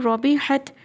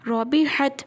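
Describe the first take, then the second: No difference in how they are said.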